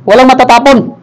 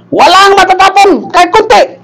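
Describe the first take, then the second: First: Said in the usual way. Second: High, insistent command; emphatic order. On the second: Acted. Pastor telling member not to spill the water, emphatic order. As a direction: raise the pitch sharply and insist.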